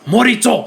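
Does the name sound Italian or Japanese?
Japanese. The name is said with a Japanese accent.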